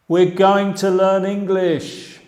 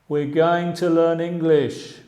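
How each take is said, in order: No difference in how they are said.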